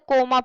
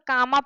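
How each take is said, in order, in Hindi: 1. पहला स्वर बंद oh ध्वनि है। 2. पहला स्वर लंबी aa ध्वनि है। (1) "या तो कोमा पढ़ते" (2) "नहीं तो अगर हमारे पास नहीं होता तो कामा पढ़ते"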